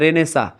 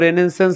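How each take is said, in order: First: The word ends with a vowel sound. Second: The word ends with an 'ns' sound. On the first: The speaker calls it right. "लेकिन उसको पढ़ते क्या है?" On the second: The speaker calls it wrong. "पहले मैं इसको रेनेसेंस बोलता था"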